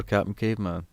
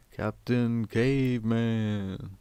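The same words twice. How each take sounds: First: Said in the usual way. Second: Long, drawn-out cartoon battle cry at modest volume; slow mock holler, vowels stretched right out; Captain Caveman shout. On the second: Recalling a cartoon hero for listeners, mock drawn-out shout. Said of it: "He would shout in that".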